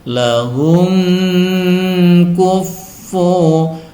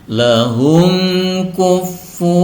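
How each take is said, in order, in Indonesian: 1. Huruf m terdengar kabur dengan dengung sengau. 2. Huruf m diucapkan jelas tanpa dengung. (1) "tidak boleh didengung atau disamarkan, tidak boleh dibaca seperti ini" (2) "harus dibaca jelas"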